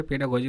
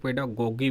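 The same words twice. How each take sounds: First: पेडागोजी with a soft j sound, pe-da-go-ji; soft g pronunciation. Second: पेडागोगी with a hard g sound, pe-da-go-gi; hard g pronunciation. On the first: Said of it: "कुछ लोग देखे हैं पेडागोजी बोलते हैं". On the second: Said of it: "कुछ लोग पेडागोगी बोलते हैं". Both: Shown as a demonstration.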